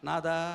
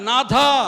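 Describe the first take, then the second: First: The second consonant is unaspirated, without a breath. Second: The second consonant is aspirated, with a breath. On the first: The speaker calls it wrong. "నాథా అన్నాడు అనుకోండి, ఎలా ఉంటుంది?" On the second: The speaker calls it right. "దాన్ని కూడా ఒత్తి పలక నాథా అనాల"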